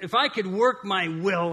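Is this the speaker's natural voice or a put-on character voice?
natural. It is read in the speaker's ordinary voice.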